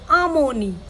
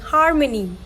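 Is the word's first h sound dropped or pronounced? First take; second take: dropped; pronounced. First: The word begins without any h sound. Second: The word begins with a clear h sound. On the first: "they would say harmony" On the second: "If you're saying harmony"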